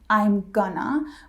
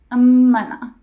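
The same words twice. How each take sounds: First: The g sound in gonna is kept. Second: The g is dropped; m links straight on. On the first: The speaker calls it wrong. "it's not I'm gonna" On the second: The speaker calls it right. "We drop the G in gonna and we drop the I"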